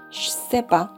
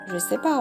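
First: The j sound becomes a ch sound. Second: The word je is said in full. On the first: "我们可以把这个日换成这个样子" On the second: "我们就会变成这个样子Je sais pas"

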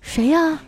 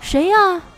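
First: It is asked at normal loudness. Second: It is asked louder and higher.

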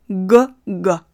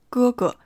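First: The g is strongly voiced with heavy vibration. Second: The g is voiceless with no vocal cord vibration. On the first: "声带的振动程度要非常之大" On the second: "比如中文中会说哥哥"

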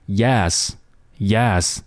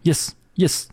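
First: The vowel is held slightly longer. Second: The vowel is cut very short. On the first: The speaker calls it right. "你要把这个元音的部分稍稍拖长那么一点点" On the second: The speaker calls it wrong. "不要把它读成yes 太快了"

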